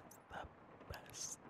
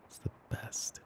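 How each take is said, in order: First: Barely-there whisper, drawn out slowly; faint slow whisper. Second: Breathy whisper close to the mic; soft whisper. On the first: Girlfriend repeating her teasing line to her partner, fainter slow whisper. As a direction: trail off into the faintest slow breath. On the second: Girlfriend savouring teasing her partner, whispering. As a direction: let it slip out as a secret. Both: Acted.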